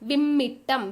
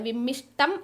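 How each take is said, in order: First: The middle consonant is a doubled 'tt'. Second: The middle consonant is an 'sht' cluster. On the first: The speaker calls it right. "വിമ്മിട്ടമാണ് ശരിയായ word" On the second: The speaker calls it wrong. "അത് തെറ്റാണ്"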